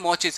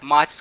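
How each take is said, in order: First: The first vowel is a rounded 'aw' sound. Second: The first vowel is an open 'ah' sound.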